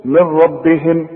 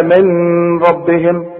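First: "من ربهم" said as "mirrabbihim", noon dropped into the raa; "من ربهم" with meem joined straight to raa; correct idgham. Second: "من ربهم" with the noon sounded before the raa; "من ... ربهم" broken apart, noon not merged; wrong, noon kept. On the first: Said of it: "شوف،". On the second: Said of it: "اوعى تقول لي بقى". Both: Shown as a demonstration.

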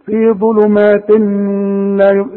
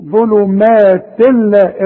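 First: ظلمات لا with a nasal hum held at the join; mistaken, over-held merge of ظلمات into لا; wrong ghunna. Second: Slow ظلمات لا with a clean doubled laam; emphatic, drawn-out "zulumaatil-laa"; no ghunna. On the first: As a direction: hum through the nose between ظلمات and لا. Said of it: "ما تغنش هنا". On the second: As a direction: merge ظلمات into لا without any nasal sound. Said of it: "اوعى تقول لي". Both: Shown as a demonstration.

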